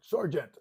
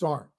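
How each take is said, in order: First: The word is said in full with two syllables. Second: The word is clipped to one short syllable. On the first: "Say the whole word" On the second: "this is Sarnt. Yes, S A R N T"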